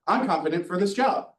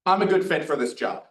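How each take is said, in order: First: "I'm confident for this job" with the pitch rising on "job", a bit airy; upward inflection. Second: "I'm a good fit for this job" with the tune falling at the end; downward inflection. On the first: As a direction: end on "job" going up like a question. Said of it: "It's kinda a lot more airy". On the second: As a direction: settle down firmly on "job", a confident downward close. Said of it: "That's a downward inflection". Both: Shown as a demonstration.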